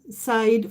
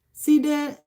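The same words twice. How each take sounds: First: Side said as English SIDE, rhymes with ride; one-syllable side. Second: Side said as two syllables, SEE-deh. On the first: Offering a viewer the second reading of a name, side as SYDE. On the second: Offering a viewer the first reading of a name, Side as SEE-deh. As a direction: say Side like "see-day", drawn out slowly. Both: Shown as a demonstration. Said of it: "Is it Side or Side".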